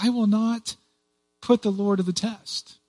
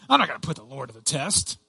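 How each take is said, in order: First: It sounds sincere and faithful. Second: It sounds dismissive and brushing off.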